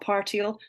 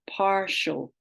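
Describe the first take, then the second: First: The I is sounded as its own syllable. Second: The I is silent, merged into a 'sh' sound. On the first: The speaker calls it wrong. "not partial" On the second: The speaker calls it right. "we've in speech set gone to partial"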